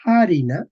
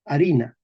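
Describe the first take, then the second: First: Harina opened on a strong, audible H; aspirated H. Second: Harina starting straight on the vowel A; silent H. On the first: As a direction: push air through the H of harina, a little louder. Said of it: "Ojo, se decía". (harina con H aspirada y marcada) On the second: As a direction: drop the H, say harina as "arina". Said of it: "perdemos la H". (harina con la H muda) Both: Shown as a demonstration.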